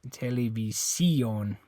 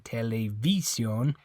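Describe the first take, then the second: First: The stress is on the fourth syllable. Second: The stress is on the third syllable. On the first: "And it's not this I. You don't say televi televisión" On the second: "It's not this I. You don't say televisión"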